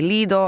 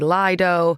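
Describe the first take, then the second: First: The word is said the Italian way. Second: The word is said the British way. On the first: "in Italy we would say Lido" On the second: "I know the Brits say Lido"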